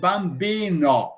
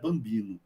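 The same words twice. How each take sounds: First: The final vowel is full and clearly marked. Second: The final vowel is weak and reduced. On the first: An Italian speaker says it. "E os italianos vão dizer bambino" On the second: A Brazilian speaker says it. "se um brasileiro vai dizer essa palavra, ele vai dizer bambino"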